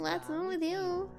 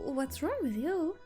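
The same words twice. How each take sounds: First: It is said in a nasal, mocking voice. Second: It is said in a plain, normal voice.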